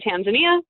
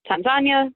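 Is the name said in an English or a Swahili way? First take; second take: English; Swahili. First: It is said with a typical English pronunciation. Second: Second syllable stressed, with soft Swahili A sounds. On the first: "when I'm speaking English, I say Tanzania because it's the typical English pronunciation" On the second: "the emphasis goes onto the second syllable, and the A's are soft rather than hard"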